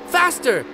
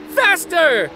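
First: High eager cry; high, excited call for more speed. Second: Higher, louder shout; louder, higher shout for more speed; excited shout. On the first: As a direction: urge him on. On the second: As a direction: yell it with full thrill. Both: Acted. Child urging papi.

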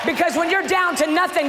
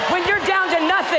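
First: Because when you're down to nothing, you're leaned on, tune falling; down to nothing, first call. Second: Higher echo with you're hit harder; down to nothing, echoed higher. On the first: Preacher to congregation, first call, you're stressed. First take of repeated line. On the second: Preacher echoing the line to the congregation, higher. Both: Acted.

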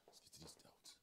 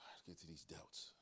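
First: Whispered and softer. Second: Said in the usual way. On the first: Real, not acted. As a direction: breathe it out under the breath. Same line said twice, whispered.

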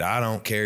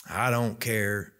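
First: Said in the usual way. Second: Slow, drawn-out Kentucky drawl; Kentucky accent. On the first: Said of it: "And he said". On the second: Retold or imitated. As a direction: imitate a Kentucky man, dragging the words. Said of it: "he said it with his Kentucky accent".

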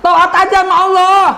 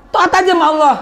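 First: High, loud, stressing Allah; loud cry of obedience; emphatic exclamation. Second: Said in the usual way. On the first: Real, not acted. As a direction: call it out loud to the crowd. Preacher's key phrase repeated.

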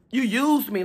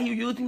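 First: Said in the usual way. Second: You used me said softer, as a thought; saying it only in her head, softer; inner voice. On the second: Retold or imitated. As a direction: think it to yourself quietly. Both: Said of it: "I'm in my mind like".

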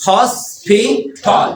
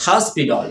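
First: Very slow "hospital", each syllable apart; teacher's slow syllable demo. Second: American-accented "hospital", dropped lower; low-pitched American pronunciation demo. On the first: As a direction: stretch and separate the syllables of "hospital". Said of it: "কয়টা syllable?". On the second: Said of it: "এটা হচ্ছে American accent". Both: Shown as a demonstration.

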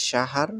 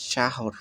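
First: "শাহার" with a long open "a" in the last syllable; variant pronunciation. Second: "শাহর" with a rounded "o" in the last syllable; variant pronunciation. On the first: Teacher showing learners one way to say the month word, variant pronunciation. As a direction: say "শাহার" as sha-HAAR, ending in -ar. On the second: Teacher showing learners another way to say the month word, variant pronunciation. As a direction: say "শাহর" as sha-hor, ending in -or. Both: Shown as a demonstration. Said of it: "এক একভাবে উচ্চারণ করে থাকেন".

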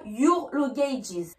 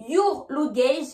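First: "luggages" with an added iz ending; measured wrong example, "luggages" ending in a buzzed s; wrong plural. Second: "luggage" with no s at the end; measured teacher's "luggage", no plural ending; singular form. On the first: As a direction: tack an s onto "luggages", slowly. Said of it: "et pas your luggages". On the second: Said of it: "Je dis bien your luggage et pas". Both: Shown as a demonstration.

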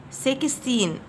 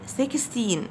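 The two takes are said the same way.

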